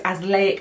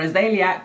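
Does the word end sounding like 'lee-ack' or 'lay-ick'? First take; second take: lay-ick; lee-ack. First: The word ends sounding like 'lay-ick'. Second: The word ends sounding like 'lee-ack'. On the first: The speaker calls it right. "it's azelaic acid is how you say it" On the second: The speaker calls it wrong. "I think I was calling it azeliac"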